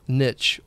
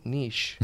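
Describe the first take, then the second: First: "niche" rhyming with rich, rising tentatively; "niche" pronounced NITCH. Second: "niche" rhyming with leash; "niche" pronounced NEESH. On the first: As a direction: say "niche" with a short i and a ch ending. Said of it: "or is it niche?". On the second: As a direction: say "niche" with a long ee and a soft sh. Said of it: "How do you say it". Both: Shown as a demonstration.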